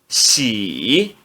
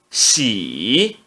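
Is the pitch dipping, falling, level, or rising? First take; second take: dipping; dipping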